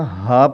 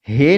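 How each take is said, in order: First: The letter name ends in an 'a' vowel. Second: The letter name ends in an 'e' vowel. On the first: This is the Arabic way of naming the letter. The speaker calls it right. "पढ़ना है" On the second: This is the Urdu way of naming the letter. The speaker calls it wrong. "नहीं पढ़ना"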